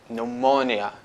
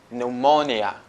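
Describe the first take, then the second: First: The initial P sound is silent. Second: The initial P sound is silent.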